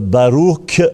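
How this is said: It ends with a hard k sound.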